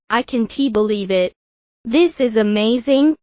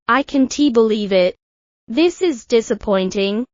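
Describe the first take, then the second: First: Lightly excited, rising on "amazing"; a touch of delight, lifting at the end; mild excitement. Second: Understated letdown, falling on "believe it"; a hint of disappointment; mild disappointment. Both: Shown as a demonstration.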